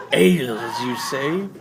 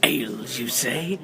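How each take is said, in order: First: Intrigued hobgoblin, louder. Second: Intrigued hobgoblin. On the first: Hobgoblin repeats, rising up. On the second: Hobgoblin's first reaction to offer. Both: Acted.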